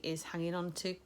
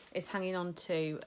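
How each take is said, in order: First: Words caught by a hiccup. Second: Said in the usual way. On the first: Real, not acted. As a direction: hiccup cuts into is hanging on to. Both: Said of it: "sorry, I'm hiccuping".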